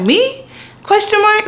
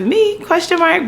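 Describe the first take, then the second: First: Very high doubtful me; unsure. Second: Unsure. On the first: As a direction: squeak it like you can't believe it. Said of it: "I'm always very much like". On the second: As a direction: ask it in a high squeak. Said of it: "title of my autobiography". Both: Retold or imitated.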